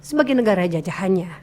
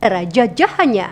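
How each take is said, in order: First: "jajahannya" kept low and softly closed; lower intonation. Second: "jajahannya" arched up, then falling; rise-fall intonation. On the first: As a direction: bring the whole phrase down through "jajahannya". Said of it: "Kan bisa lebih rendah juga bisa". ("jajahannya" dengan nada lebih rendah) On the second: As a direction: swing the tune up and down on "jajahannya". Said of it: "Kan bisa seperti itu". ("jajahannya" naik lalu turun) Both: Shown as a demonstration.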